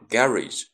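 It is said with a British pronunciation. "在英国呢，读成garage"

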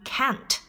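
The vowel is said in an American way.

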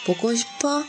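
The voice rises at the end. It asks whether the listener misses someone.

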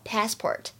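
American accent, with a flat vowel and an r. "在美式英语当中呢，我们读的是梅花音，而且后面呢有卷舌头"

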